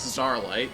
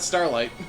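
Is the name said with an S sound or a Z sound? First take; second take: Z sound; S sound. First: The name is said with a Z sound. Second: The name begins with a plain S sound. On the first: The speaker calls it wrong. "which just sounds weird" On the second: The speaker calls it right. "I'm just gonna pronounce that Starlight"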